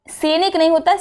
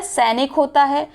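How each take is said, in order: First: सैनिक said "senik" with closed e; wrong pronunciation. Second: सैनिक said "sainik" with open ai; correct pronunciation. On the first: Teacher quoting the mistake, closed-e form. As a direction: narrow the first vowel of सैनिक. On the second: Teacher correcting it, open-ai form. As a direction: widen the first vowel of सैनिक. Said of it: "सैनिक नहीं होता है". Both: Shown as a demonstration.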